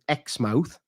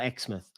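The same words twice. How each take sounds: First: It is said the local Australian way. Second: It is said the southern English way. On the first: "But they pronounce it Exmouth" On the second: "which we would call Exmouth, like in southern England"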